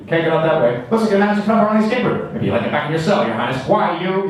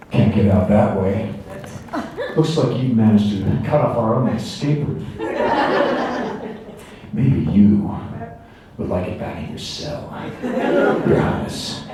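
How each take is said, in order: First: Put-on fast, higher-pitched rapid-fire old movie dialogue; nineteen forties pace. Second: Slow, drawn-out line reading with long pauses; powolna, rozwlekła wersja. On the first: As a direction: rattle it off like a forties adventure serial. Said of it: "nineteen forties pace of the dialogue". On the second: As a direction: deliver it slow and subtle, modern film pacing. Slow take of film lines. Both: Shown as a demonstration.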